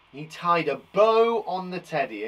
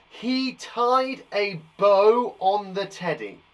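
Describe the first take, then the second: First: Said in the usual way. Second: Slow, deliberate example sentence with a lean on "tied"; slow, clear teacher demo of "he tied a bow on the teddy"; slow careful reading. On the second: Shown as a demonstration. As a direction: read it out slowly so every word lands. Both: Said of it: "bow and bow are homographs".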